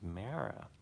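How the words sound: The name is said in an American accent. "I'm an American. I would pronounce your name as Mara"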